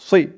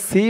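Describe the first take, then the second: First: The s sound is heavy and full-mouthed. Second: The s sound is light and thin. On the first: It is the intended letter. The speaker calls it right. "বলতে হবে সই, মুখটা একটু ভরপুর থাকবে এমন মনে হবে।" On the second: It sounds like a different letter. The speaker calls it wrong. "একেবারে সি বলা যাবে না, সি বললে কিন্তু সিনের উচ্চারণ হয়ে যাবে"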